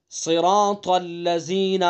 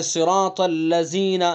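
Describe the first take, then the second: First: صراط الذین said slowly, ذ of الذین given a buzzing z like ز; mistaken pronunciation. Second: صراط الذین with the ذ of الذین sounding like ز; mistaken pronunciation again. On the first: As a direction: demo the common error, ذ buzzed as ز. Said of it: "بہت سے لوگ یہ غلطی کرتے ہیں". (غلط تلفظ، ذ کو ز کی طرح) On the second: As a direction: show the error once more, ذ as ز. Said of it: "یوں پڑھ دیتے ہیں". (ذ کو ز پڑھنے کی غلطی) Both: Shown as a demonstration.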